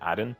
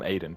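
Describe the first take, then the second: First: The name is said following its spelling, 'Adin'. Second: The name is said the usual way, 'Aiden'. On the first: This is how the teacher said the name. "the teacher always pronounced uh, like his name Adin" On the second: This is how most people said the name. "some people call him Aiden"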